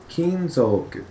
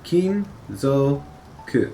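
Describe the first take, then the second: First: Said in the usual way. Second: Kinzoku drawn out slowly, syllable by syllable. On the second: Shown as a demonstration. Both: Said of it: "So, kinzoku".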